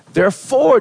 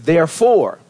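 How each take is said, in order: First: "Therefore" punched much higher and louder; emphasis on therefore. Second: Said in the usual way. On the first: Shown as a demonstration. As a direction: hit "Therefore" hard, pitch leaping up. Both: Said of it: "He put emphasis on the".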